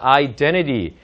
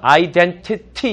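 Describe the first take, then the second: First: The ending is pronounced soft and smooth. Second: The ending is pronounced hard and crisp. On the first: The speaker calls it right. "끝을 부드럽게 처리해서" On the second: The speaker calls it wrong. "이렇게 하면은 안 좋고"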